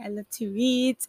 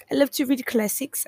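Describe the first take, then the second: First: Said in the usual way. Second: "I love to read classics" slipping into an unplanned accent; stray accent. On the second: Real, not acted. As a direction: let a sudden foreign-sounding accent creep in on "classics". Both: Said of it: "I don't know where that accent came from".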